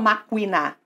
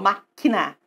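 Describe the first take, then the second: First: The u after the k is sounded aloud. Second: The u after the k is silent. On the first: The speaker calls it wrong. "Eu não falo maquina" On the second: The speaker calls it right. "eu falo máquina, tá? O U não é pronunciado"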